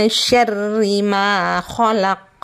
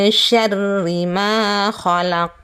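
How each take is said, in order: No difference in how they are said.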